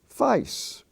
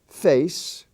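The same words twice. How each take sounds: First: It is said in an Australian accent. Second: It is said in an American accent.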